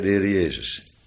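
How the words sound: The word Jezus carries the main stress. The redeemer is understood as Jesus himself. "Met de nadruk op Jezus"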